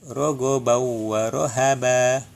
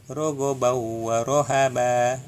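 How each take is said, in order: The two takes are said the same way.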